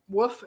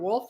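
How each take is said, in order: First: The word is said without the L sound. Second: The word is said with the L sound. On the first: The speaker calls it wrong. "People mispronounce wolf. They say they call it a woof" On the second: The speaker calls it right. "instead of wolf"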